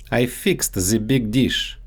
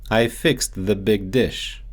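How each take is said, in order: First: The said as "ze", with a Russian z; Russian-accented "the" becoming ze; the big dish with a Russian z in "the". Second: Said in the usual way. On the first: Shown as a demonstration. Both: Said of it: "so they often get mixed up in English".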